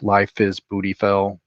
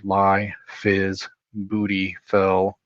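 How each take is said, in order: First: The words are said faster and run together. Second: Each word is said slowly and separately. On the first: "if you started saying that faster" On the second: "you just sound it out"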